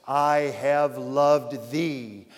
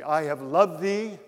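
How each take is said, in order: First: "loved" drawn out very slowly, weighed down; stress on loved. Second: Said in the usual way. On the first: Shown as a demonstration. Preacher dwelling on the verse, slow stress on "loved". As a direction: linger on "loved", slow and solemn.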